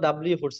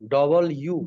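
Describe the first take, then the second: First: It is said as one blended word, dablu. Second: It is said as two parts, double-you. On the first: The speaker calls it wrong. "আমরা সাধারণত ডাব্লিউ পড়েছি" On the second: The speaker calls it right. "এটার উচ্চারণ হবে কি? ডবল ইউ"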